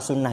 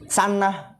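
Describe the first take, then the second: First: The first vowel is u. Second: The first vowel is a. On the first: The speaker calls it right. "sunnah ini deh" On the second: The speaker calls it wrong. "benar bukan?"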